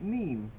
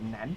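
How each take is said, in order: First: The vowel is long, as in 'seen'. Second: The vowel is short, as in 'pen'. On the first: This is the local Peterborough form. "Peterborough pronouncing it" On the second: This is the local Northampton form. "Northampton usually pronouncing it"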